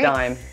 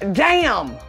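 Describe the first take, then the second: First: The name rhymes with 'time'. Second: The name rhymes with 'jam'. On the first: The speaker calls it right. "from what we've been told" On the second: The speaker calls it wrong. "I know this is not how you pronounce this"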